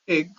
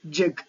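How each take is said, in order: First: The word starts directly with a vowel. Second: The word starts with a j-like sound. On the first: "in the place of egg" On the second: "they pronounce ja, jig"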